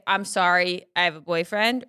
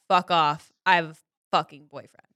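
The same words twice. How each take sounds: First: Said in the usual way. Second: "Fuck off, I have a fucking boyfriend" as a mild mock snap; a half-hearted rude brush-off. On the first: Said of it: "are you somebody that's gonna say". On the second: Shown as a demonstration. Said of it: "or are you saying".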